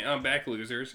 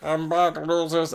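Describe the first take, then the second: First: Star. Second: Lightly voiced gloating villain; star. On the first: Acted. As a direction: gloat it like a smug parrot. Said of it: "can you do it?". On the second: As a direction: tease it like a smug comeback. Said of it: "Can I do Star's voice?".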